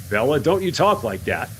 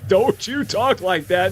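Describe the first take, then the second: First: Said in the usual way. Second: Higher, slow scolding of don't you talk like that, with a rise on talk; mock scolding. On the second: Streamer mock-scolding herself for fearing a bug, higher and slow. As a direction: playfully scold yourself like a parent.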